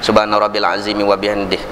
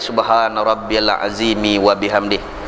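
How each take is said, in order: First: It is recited quickly. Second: It is recited slowly and evenly. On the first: "Kalau hadar"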